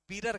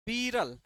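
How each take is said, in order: First: बीरर with a final r in place of l; village-style बीरर, r replacing the last l; village pronunciation. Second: Said in the usual way. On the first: Shown as a demonstration. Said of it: "गांव में कुछ लोग इसको बीरर कहते हैं". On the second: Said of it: "देखो गांव में शब्द होता है ना".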